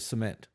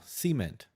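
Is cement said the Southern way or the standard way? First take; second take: standard; Southern. First: It is said with a standard pronunciation. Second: It is said with a Southern pronunciation.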